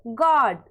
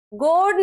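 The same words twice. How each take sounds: First: गॉड said "gaad", vowel open; open short O. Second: गॉड misread as "goad", long O; wrong long O. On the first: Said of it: "पढ़ना है". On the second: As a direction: say गॉड with a round "oh". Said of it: "नहीं पढ़ना है". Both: Shown as a demonstration.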